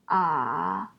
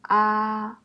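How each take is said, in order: First: The pitch dips low, then rises. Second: The pitch stays high and level.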